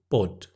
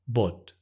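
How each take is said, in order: First: The vowel is short and clipped. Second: The vowel is short and clipped.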